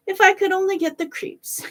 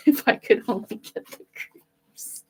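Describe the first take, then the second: First: Much higher, sing-song wish; musing to himself. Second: Said in the usual way. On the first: A narrator's reading. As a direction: dreamily repeat a wish. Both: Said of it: "kept saying to himself".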